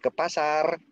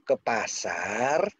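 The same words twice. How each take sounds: First: The pitch stays level at the end. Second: The pitch rises at the end. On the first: It confirms that going to the market is required. "Itu memberitahu, mengkonfirmasikan bahwa memang harus ke pasar" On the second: It asks whether to really go to the market. "Bener nggak ke ke pasar?"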